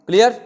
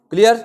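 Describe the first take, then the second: No difference in how they are said.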